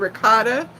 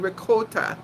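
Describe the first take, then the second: First: It is said with an American accent. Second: It is said with an Italian accent.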